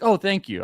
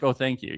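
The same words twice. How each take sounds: First: It sounds proud, as if after an accomplishment. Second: It sounds casual and matter-of-fact.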